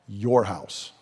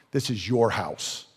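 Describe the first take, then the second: First: "Your" pressed and falling, slow; stress on your. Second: "your" hit and falling, quiet; stress on your. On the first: Acted. Jesus telling them the temple is theirs, stressing "Your". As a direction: weigh "Your" like a verdict. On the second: Shown as a demonstration. Preacher repeating the verdict, stressing "your". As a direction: press down on "your".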